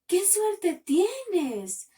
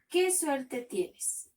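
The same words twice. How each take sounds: First: It is said with excited happiness. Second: It is read flatly, without emotion.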